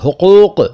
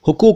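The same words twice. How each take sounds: First: It is said with a deep throaty q sound. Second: It is said with a plain front k sound. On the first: The speaker calls it right. "काफ क्यों नहीं सीखते बोलना" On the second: The speaker calls it wrong. "हुकूक नहीं"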